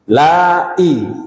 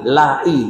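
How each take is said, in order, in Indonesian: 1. Hentian glotis memisahkan la dari i. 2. La dan i menyatu menjadi satu suku kata. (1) "Tiga la i dan hamzah" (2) "Yang tak kena niku"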